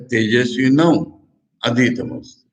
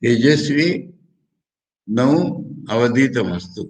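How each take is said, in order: First: Tejashwi नौ अधीतमस्तु, the last word run together; second sandhi split. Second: तेजस्वी... नौ... अवधीत मस्तु, spaced apart; split with pauses. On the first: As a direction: join it as अधीतमस्तु after Tejashwi नौ. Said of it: "और दूसरा अर्थ इसका हो गया". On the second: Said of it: "इसके दो प्रकार से संधि विच्छेद हो रहा है". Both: Shown as a demonstration.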